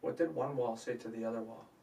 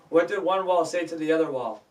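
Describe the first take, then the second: First: It is said at a quieter, plainer volume. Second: It is said louder, with more energy. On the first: The speaker calls it wrong. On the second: The speaker calls it right.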